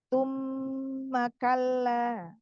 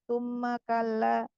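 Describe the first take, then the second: First: It is unhurried and the nasal m is held long. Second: It is rushed and the nasal m is cut short. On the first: The speaker calls it right. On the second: The speaker calls it wrong. "jangan terburu-buru, jangan tumma kalla ... tidak sempurna gunahnya"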